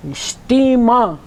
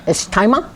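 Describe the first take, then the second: First: "Istima" slow, with a long "tee" in the middle; careful correct pronunciation. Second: "It's timer" with "tie" in the middle; mock mispronunciation. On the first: Teacher correcting the misreading, slow careful "Istima". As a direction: stretch "Istima" as ish-TEE-mah. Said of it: "It's a hard T, another E, and an A H". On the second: Teacher laughing at a misreading, mispronounced "It's timer". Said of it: "It's a hard T, another E". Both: Shown as a demonstration.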